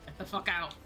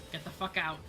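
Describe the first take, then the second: No difference in how they are said.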